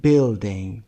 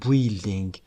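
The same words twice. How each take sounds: First: Building said slowly, u silent, like bilding; correct pronunciation. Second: Building with the u sounded, bu-ilding; wrong pronunciation. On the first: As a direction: say building slow with no u sound. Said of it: "گفتیم building". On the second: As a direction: sound the silent u in building on purpose. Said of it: "ما اینجا نگفتیم building". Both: Shown as a demonstration.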